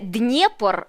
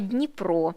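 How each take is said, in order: First: The name has its Russian pronunciation. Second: The name has its Ukrainian pronunciation. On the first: "не" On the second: "а"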